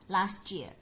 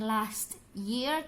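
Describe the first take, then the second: First: The t and y merge into a ch sound. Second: The t and y sounds stay separate. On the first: "diubah menjadi" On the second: "jarang sekali mereka mengucapkan dengan"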